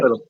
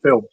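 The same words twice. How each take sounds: First: The word is said in an Irish way. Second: The word is said in a plain, non-Irish way. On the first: This is how the Irish cousins say it. "They always say" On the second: This is not how the Irish cousins say it. "They wouldn't say film"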